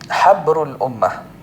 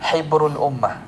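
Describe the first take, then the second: First: The first syllable has an 'a' vowel. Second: The first syllable has an 'i' vowel. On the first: The scholar of the community. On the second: The ink of the community.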